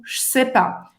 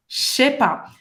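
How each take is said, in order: First: "je sais pas" with a clear s, "sé-pa"; careful je sais pas. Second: "je sais pas" fused into "ché-pa"; informal slurred contraction. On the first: Teacher showing the safer form, "je sais pas" with a clean s. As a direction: say "je sais pas" as "s'sé-pa", s not sh. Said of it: "Se você tá na dúvida, usa o". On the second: Teacher showing talk between close friends, "je sais pas" as "ché-pa". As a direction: slur "je sais pas" to start with a sh sound. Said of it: "Se você já é íntimo". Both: Shown as a demonstration.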